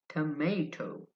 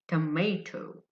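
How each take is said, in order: First: American accent, the middle syllable sounds like 'may'. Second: The same.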